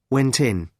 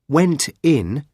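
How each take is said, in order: First: The two words run together as one. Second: The two words are said separately.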